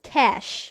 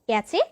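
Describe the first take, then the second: First: The word ends with an sh sound. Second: The word ends with a cheh sound. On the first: The speaker calls it right. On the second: The speaker calls it wrong. "ক্যাচে কিংবা ক্যাচ নয়"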